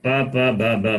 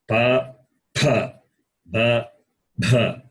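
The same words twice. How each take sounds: First: The second syllables have no audible breathy aspiration. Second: The second syllables have a clear breathy aspiration. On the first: The speaker calls it wrong. "it is not pa, pa, ba, ba, ma. It's not like that" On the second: The speaker calls it right. "You should show the difference between alpa prana and"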